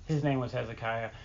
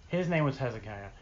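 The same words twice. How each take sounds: The two takes are said the same way.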